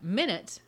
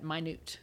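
First: "minute" as MIN-it, front-stressed; stress on first syllable. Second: "minute" as my-NOOT, end-stressed; stress on second syllable. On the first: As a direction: say "minute" like the unit of time, MIN-it. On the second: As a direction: say "minute" like the word for tiny, my-NOOT. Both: Shown as a demonstration. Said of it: "you've got minute and you've got minute".

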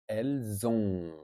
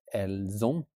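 First: Elles ont ending on a nasal "on", no T, slow; correct pronunciation. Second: Elles ont with a sounded T at the end; wrong pronunciation. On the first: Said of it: "And that's nasal". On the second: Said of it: "No T in the end, not elles ont". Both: Shown as a demonstration.

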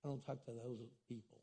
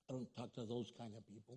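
First: Low, much softer, dismissive aside; snobbish mock voice. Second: Low, much softer, quick brush-off; fast snobbish mock voice. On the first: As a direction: sniff at them like a snob. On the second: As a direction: rattle it off like a snob.

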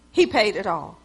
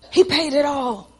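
First: Dropped low and soft, reverent; hushed. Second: Sincere. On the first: Preacher telling the church Jesus paid, hushed and low. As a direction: let it fall to a hush. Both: Real, not acted.

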